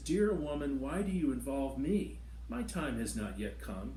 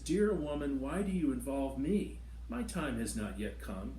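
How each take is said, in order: First: The reading carries a personal emotional colouring. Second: The same.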